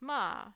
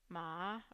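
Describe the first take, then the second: First: The pitch falls from top to bottom. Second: The pitch dips to the bottom, then returns mid. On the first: "this big fall um, across the entire range from level five to level one" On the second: "you start mid, then you drop to the bottom of the pitch range, and then you um, come back up to mid"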